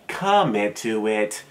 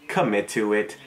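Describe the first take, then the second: First: Slow, stretched COMMIT to drive it home; drawn-out emphasis. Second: Said in the usual way. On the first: Real, not acted. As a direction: lean hard and long on "Commit". Repeats the advice for emphasis.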